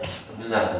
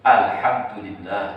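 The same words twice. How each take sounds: First: It is said hurriedly and slurred. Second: It is said slowly and clearly.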